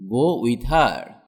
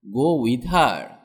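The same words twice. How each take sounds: The two takes are said the same way.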